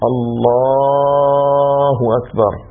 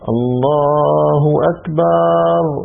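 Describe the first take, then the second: First: The vowel between b and r is short. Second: The vowel between b and r is long. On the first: The speaker calls it right. "هنا الأفضل إيش؟ أن لا يمد" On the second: The speaker calls it wrong. "أتى بألف بين الباء والراء، هذا غلط"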